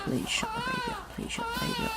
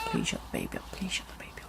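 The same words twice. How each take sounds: First: High, whiny pleading; desperate plea. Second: Soft desperate whisper; whispered plea. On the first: Passenger begging the parents to silence the baby. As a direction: beg like you're at your wit's end. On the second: Passenger whispering a plea about the baby. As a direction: beg under your breath. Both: Acted.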